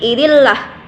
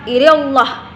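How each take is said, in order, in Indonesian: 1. Bunyi L itu tipis dan ringan. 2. Bunyi L itu tebal dan gelap. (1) "berarti bacanya tipis" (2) "bukan irillah"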